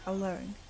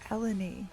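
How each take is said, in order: First: The name sounds like the word alone. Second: The name is said with an ending like ee. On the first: This is how the speaker usually says the name. "I called her alone. How do we say it?" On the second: This is how another person says the name. "She called her Eleni"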